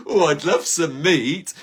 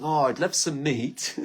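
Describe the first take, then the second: First: Louder, slow, longing "Oh, I'd love some meat."; milk the craving, drawing out "love"; hammed-up craving. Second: Said in the usual way. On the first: Shown as a demonstration. Shopper at the farm shop hamming up a meat craving. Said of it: "repeated, drawn out". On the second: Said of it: "repeats the line more strongly".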